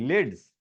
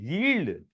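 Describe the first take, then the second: First: The word sounds like 'lids'. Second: The word sounds like 'yield'. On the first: The speaker calls it right. "नहीं नहीं" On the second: The speaker calls it wrong. "तुम बच्चे ऐसे कैसे कह रहे थे"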